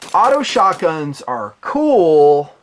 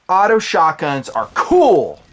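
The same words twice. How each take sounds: First: It is said hesitantly, trailing off. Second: It is said with wholehearted enthusiasm. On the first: The speaker has reservations. "there's more to the story" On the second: The speaker fully approves. "that would infer that I'm really, really on board"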